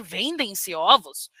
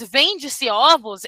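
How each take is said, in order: First: "Vendem-se ovos" with a nasal em ending on the verb; "Vendem-se" said with a nasal second syllable, dropping lower; plural verb form. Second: "Vende-se ovos" with no nasal ending on the verb; "Vende-se" said with a plain open-e ending; singular verb form. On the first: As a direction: quote "Vendem-se ovos" slowly, the prescribed way. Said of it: "They should say". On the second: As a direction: quote "Vende-se ovos" slowly, the colloquial way. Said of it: "Someone who says". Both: Shown as a demonstration.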